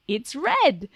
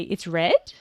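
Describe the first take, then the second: First: "red" high, then falling as a statement; comment intonation. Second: "red" rising like a question; "red" turned upward into a question; questioning intonation. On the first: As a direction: pitch up and bring "red" down. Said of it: "with our intonation making it a comment". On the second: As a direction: lift "red" at the end as if asking. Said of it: "They hear that intonation". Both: Shown as a demonstration.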